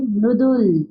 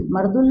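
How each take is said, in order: First: मृदुल with "mru" at the start; teacher's correction, मृदुल with vocalic r; correct pronunciation. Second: मर्दुल with "mar" at the start; rejected example मर्दुल, full a before r; mispronounced word. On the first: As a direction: model मृदुल as "mru-dul". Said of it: "क्या होता है". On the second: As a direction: say मर्दुल as the wrong "mar-dul". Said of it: "नहीं होता है". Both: Shown as a demonstration.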